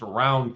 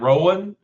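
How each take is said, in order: First: The name sounds like 'round'. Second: The name sounds like 'Rowan'. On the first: This is how the Kentucky county name is said locally. "It's pronounced Round County. That's Eastern Kentucky sounding" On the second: This is how the guest says his own name. "And is it Rowan? Is that how you pronounce it?"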